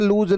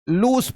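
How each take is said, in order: First: The word ends with a z sound. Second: The word ends with an s sound. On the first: The speaker calls it wrong. "इसे लूज नहीं पढ़ते" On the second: The speaker calls it right. "इसे लूस पढ़ते हैं"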